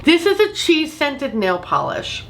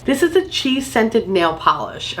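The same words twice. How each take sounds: First: Slow, higher-pitched repeat for emphasis; drawn-out, incredulous-sounding restatement; emphatic repeat. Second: Said in the usual way. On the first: Shown as a demonstration. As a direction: say it slowly and high so it sinks in. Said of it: "I feel like it bears repeating". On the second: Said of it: "I'll say that again".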